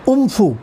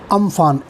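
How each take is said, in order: First: The name ends in an 'oo' sound. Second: The name ends in an 'an' sound. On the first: The speaker calls it right. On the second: The speaker calls it wrong.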